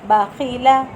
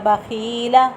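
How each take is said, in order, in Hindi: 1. तीनों अक्षर छोटे रखे जाते हैं। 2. दूसरा अक्षर लंबा खींचा जाता है। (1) "तीनों हरफ लंबे नहीं होंगे" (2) "ऐसे भी नहीं पढ़ना बाखीला... खा लंबा हो गया"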